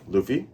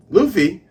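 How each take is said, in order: First: Said in the usual way. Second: Higher, louder call of the name; insistent call. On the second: Retold or imitated. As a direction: call out to get his attention. Second, more urgent call to Luffy.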